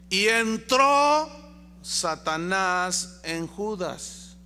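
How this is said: The word 'entró' is strongly emphasized.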